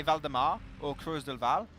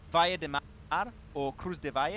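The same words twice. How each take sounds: First: Said in the usual way. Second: Imitating Spanish: Valle de Mar, Cruz de Valle; Spanish pronunciation. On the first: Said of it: "when I say". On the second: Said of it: "he would really say it in Spanish".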